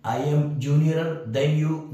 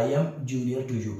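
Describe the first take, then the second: First: Slow, deliberate, slightly louder reading of the wrong sentence; wrong example, read slowly. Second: Slow, even reading of the right sentence; correct example, read slowly. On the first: Teacher reading a wrong English example to students, slow and deliberate. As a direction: spell out "junior than" word by word. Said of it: "नहीं होगा, गलत है". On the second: Teacher giving students the correct English sentence, slow and even. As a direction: lay out "junior to you" calmly. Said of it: "इनके साथ". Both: Shown as a demonstration.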